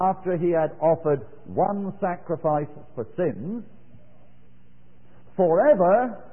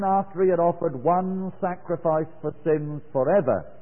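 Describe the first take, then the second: First: The phrase breaks before 'forever'. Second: The phrase runs on and ends after 'forever'. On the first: He sat down forever. "they think that it should be this" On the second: The one sacrifice counts forever. "Just read it this way"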